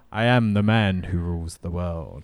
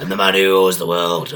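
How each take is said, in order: First: Bond villain. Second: Loud, dumb wrestler bellow; mock Sid shout. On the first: Retold or imitated. Recasting Sid's catchphrase as a Bond villain, suave. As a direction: deliver it like a calm Bond villain. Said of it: "You see, Mister Bond". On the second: Showing how Sid really says it, a loud dumb shout. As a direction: shout it with no inflection. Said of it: "You wouldn't say it like that".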